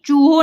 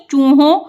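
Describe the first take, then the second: First: "चूहों" ending on an oral o; the mistaken "चूहों", no nasal; without nasal. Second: "चूहों" with a nasal õ at the end; nasalised ending. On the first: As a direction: say "चूहों" with a plain o at the end. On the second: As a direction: model "चूहों", last vowel through the nose. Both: Shown as a demonstration. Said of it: "चूहों नहीं".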